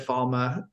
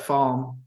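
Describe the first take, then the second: First: The name ends with an added vowel, two syllables. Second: The name ends on the consonant, one syllable. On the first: This is how the speaker always used to say it. "which I always said Falma" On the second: This is the pronunciation the speaker is trying to adopt. "I'm like trying to get used to saying Falm now"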